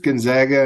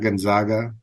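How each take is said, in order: First: The second syllable is said like 'zag'. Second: The second syllable is said like 'zog'. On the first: "Are you sure it's Gonzaga" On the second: "then they'd be the Zogs"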